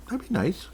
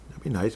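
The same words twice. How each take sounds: First: Lilting high that'd be nice; playful high-pitched that'd be nice; high sing-song. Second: Said in the usual way. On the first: Shown as a demonstration. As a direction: jump way up on be. Repeats phrase with a pitch jump.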